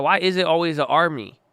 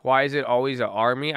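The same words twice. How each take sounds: First: Mock-dramatic reread. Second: Said in the usual way. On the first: Shown as a demonstration. Streamer rereads viewer's chat line with mock awe. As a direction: savor the line like it's profound. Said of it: "repeats chat line Why is it always an army".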